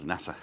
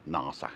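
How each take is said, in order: First: Nasa with a short a as in cat; nasa, flat front vowel in the first syllable; short-a pronunciation. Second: Nasa with a long ah; nasa, open back vowel in the first syllable; broad-a pronunciation. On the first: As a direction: say nasa as NASS-uh. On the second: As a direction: say nasa as NAH-suh. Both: Shown as a demonstration. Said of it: "Is it nasa or nasa?".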